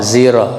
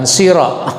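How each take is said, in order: First: The word starts with a buzzing z sound. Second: The word starts with a hissing s sound. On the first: This is a less familiar, transmitted way of reciting. "zira, bukan sira" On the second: This is the way commonly heard locally. "bukan sira"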